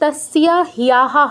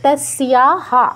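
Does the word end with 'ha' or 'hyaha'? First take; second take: hyaha; ha. First: The ending is pronounced with an extra 'hya' sound. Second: The ending is pronounced as a plain 'ha' sound. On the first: The speaker calls it wrong. "হবে না" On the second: The speaker calls it right. "এটা যোগ করতে হবে তাসিয়া হা"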